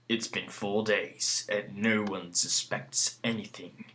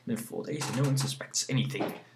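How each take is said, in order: First: It is read in a put-on epic voice. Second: It is read in the speaker's normal voice.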